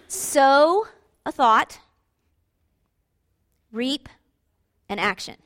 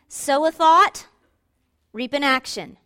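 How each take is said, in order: First: It is said very slowly. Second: It is said a little faster.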